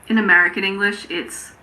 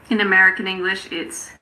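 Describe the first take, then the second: The two takes are said the same way.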